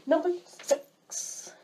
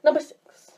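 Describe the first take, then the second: First: High, slow, stretched-out countdown call; drawn-out announcement. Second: Brisk, high and loud countdown call; loud announcement. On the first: Vlogger announcing the next pet peeve, drawn-out announcement. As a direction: draw out the number in a raised voice. Announces item, then redoes it. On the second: Vlogger redoing the item announcement, loud and brisk. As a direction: call the number out quickly and loudly. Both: Shown as a demonstration.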